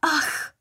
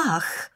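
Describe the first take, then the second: First: Very high sharp "Ach!"; shocked cry. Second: Repeated exclamation. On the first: Scarlett sees her pouting lips in the mirror, shocked cry. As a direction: gasp it out, mortified. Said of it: "vykřikla". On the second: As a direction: let it out again, more vexed than shocked. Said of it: "vykřikla ještě jednou". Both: Acted.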